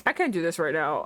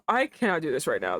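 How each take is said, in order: First: Said in the usual way. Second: "cannot" spelled out in full, firm and low; stress on cannot. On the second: Real, not acted. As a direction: lean hard on "cannot".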